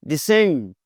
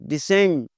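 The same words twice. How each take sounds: Both takes have the same delivery.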